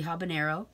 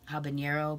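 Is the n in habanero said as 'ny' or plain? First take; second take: plain; ny. First: The n is said as a plain n. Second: The n is said like 'ny'. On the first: The speaker calls it right. "but it's actually habanero" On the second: The speaker calls it wrong. "which leads a lot of people to think that it's also habanero"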